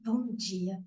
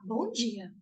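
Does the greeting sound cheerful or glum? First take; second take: glum; cheerful. First: It is said in a glum, gloomy tone. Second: It is said in a bright, cheerful tone.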